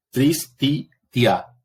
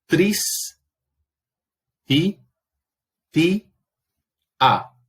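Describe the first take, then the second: First: "tris, ti, ti, a" with the final "ti, a" run together as one syllable "tia"; división equivocada. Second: "tris, ti, ti, a" as four separate syllables, long pauses between; sílaba por sílaba. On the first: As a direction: say "tris, ti, ti, a" in three beats, gliding "ti, a" into one. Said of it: "lo que uno tendería a hacer". ("tris, ti, ti, a" con "ti, a" unido en una sílaba) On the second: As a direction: sound out "tris, ti, ti, a" one raised syllable at a time. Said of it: "Vamos a la segunda palabra". ("tris, ti, ti, a" silabeado, con pausas largas)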